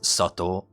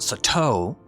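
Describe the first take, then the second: First: It is said with native Japanese pronunciation. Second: It is said with an anglicized English pronunciation. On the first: The speaker calls it right. "It's Sato" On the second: The speaker calls it wrong. "It's not Sato"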